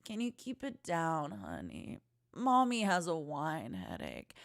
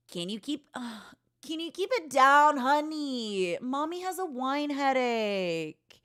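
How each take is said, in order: First: Much softer, slowing down, tired and hushed; a quiet, drained plea to the kids; hungover mom. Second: A hint of a tired mother scolding; mild mock scold from a hungover mother; mom voice. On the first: Acted. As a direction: hush it like your head is pounding. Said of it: "you wouldn't be yelling it dramatically". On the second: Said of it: "release my inner actress".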